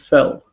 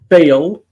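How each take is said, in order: First: The vowel is a short 'eh' sound. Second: The vowel is a clear 'ay' sound. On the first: The speaker calls it wrong. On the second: The speaker calls it right.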